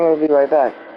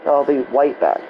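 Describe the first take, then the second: First: The word starts with a normal r sound. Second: The word starts with a w-like sound.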